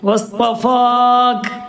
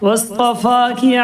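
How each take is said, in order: First: The word ends on a bare k sound. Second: The word ends on a short i vowel. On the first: The reciter stops at this word. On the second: The recitation continues into the next words.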